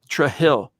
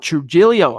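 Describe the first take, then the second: First: The name ends without a final O sound. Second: The name ends with a final O sound.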